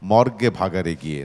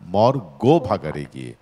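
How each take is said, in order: First: The first two syllables are run together. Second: The first two syllables are said apart. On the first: It sounds like dying in a morgue. The speaker calls it wrong. "মর্গে ভাগাড়ে গিয়ে না" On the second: It tells one to die in the cattle dump. The speaker calls it right. "গো মানে গরুর ভাগাড়ে গিয়ে মরতে বলেছে"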